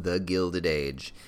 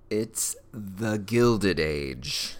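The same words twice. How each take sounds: First: "The Gilded Age" slowed, with a falling stress on "Gilded"; announcer repeat. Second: "It's The Gilded Age" drawn out very slowly, "Gilded" stretched; grand announcement. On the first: Host re-announcing the show to the audience, slowed showman fall. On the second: Host presenting her favourite show to viewers, drawn-out grand reveal. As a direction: unveil the title slowly like a showman. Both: Shown as a demonstration. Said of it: "That's right, ladies and gentlemen".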